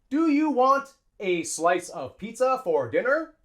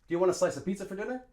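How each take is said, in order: First: Each word is said separately and slowly. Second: The words are reduced and linked together smoothly. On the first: The speaker calls it wrong. "an English student would say" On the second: The speaker calls it right. "A native English speaker would say"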